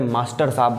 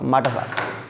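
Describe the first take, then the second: First: The word master is said in full. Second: The s sound is dropped from master. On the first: "मास्टर साहब बोल" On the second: "मास्टर को माटर"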